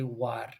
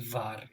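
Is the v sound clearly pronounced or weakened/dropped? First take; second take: weakened; clearly pronounced. First: The first sound is not a clear v. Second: The first sound is a clear v. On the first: "You might say war" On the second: "you're not always going to say var"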